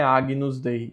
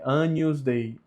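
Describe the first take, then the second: First: "Agnus" with a hard g, "a-gui-nus"; wrong gn pronunciation. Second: "Agnus" as "a-nhus", no hard g. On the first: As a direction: separate g and n in "Agnus Dei". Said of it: "O G com o N". ("Agnus" com g duro, "águinus") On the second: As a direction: soften "Agnus Dei" to "Anyus Dei". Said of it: "Não é Agnus Dei". ("Agnus" com som de nh, "ânhus") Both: Shown as a demonstration.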